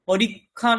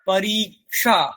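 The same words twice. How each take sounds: First: The cluster is pronounced as a plain kh sound. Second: The cluster is pronounced as k followed by sh. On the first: The speaker calls it wrong. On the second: The speaker calls it right.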